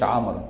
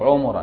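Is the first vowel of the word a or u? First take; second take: a; u. First: The first vowel is a. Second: The first vowel is u. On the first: The word is used in an oath. The speaker calls it wrong. "ما يقولش عمرا" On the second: The word is used outside an oath. The speaker calls it right. "خد بال بفتح بضم العين"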